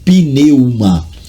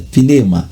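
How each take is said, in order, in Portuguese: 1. É pronunciada letra por letra, como se escreve. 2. Não é pronunciada letra por letra, como se escreve. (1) "há quem pronuncie do jeito que lê" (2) "mas é pneuma"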